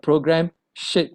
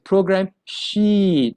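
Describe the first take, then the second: First: The vowel in sheet is short. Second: The vowel in sheet is long. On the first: The speaker calls it wrong. "not a program shit" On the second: The speaker calls it right. "a longer E sound"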